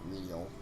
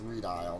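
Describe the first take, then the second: First: The first syllable sounds like 'ray'. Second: The first syllable sounds like 'ree'. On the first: The speaker calls it wrong. "not radial" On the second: The speaker calls it right. "It's redial"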